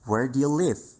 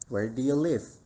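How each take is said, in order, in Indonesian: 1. Kata-katanya mengalir menyatu dengan lancar sebagai ucapan yang tersambung. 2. Kata-katanya mengalir menyatu dengan lancar sebagai ucapan yang tersambung.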